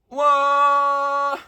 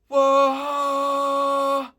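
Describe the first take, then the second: First: The voice is clear, not breathy. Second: The voice is breathy and airy.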